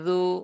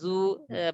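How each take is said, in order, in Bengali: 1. এই অক্ষরটি নরমভাবে শেষ হয়, কোনো অতিরিক্ত ধ্বনি যোগ হয় না। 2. এই অক্ষরের শেষে একটি কর্কশ 'ah' ধ্বনি যোগ হয়। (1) "এটা নরম আওয়াজ" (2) "এই এই আওয়াজটা কিন্তু হয় না"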